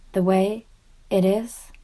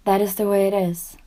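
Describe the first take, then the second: First: "way" lifted into a question, pause before "it is"; doubting echo question. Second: Said in the usual way. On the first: Acted. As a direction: question "The way ... it is?" haltingly, voice rising. Repeats the statement as question.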